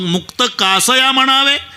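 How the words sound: It is said with a questioning tune. The line asks something the next line answers. "इथं प्रश्नचिन्ह द्या"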